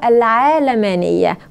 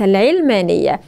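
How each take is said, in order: First: The first syllable has a long 'aa' vowel. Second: The first syllable has a short 'i' vowel. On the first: The speaker calls it right. "النطق العربي الصحيح لها هو العالمانية" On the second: The speaker calls it wrong. "وليس العلمانية"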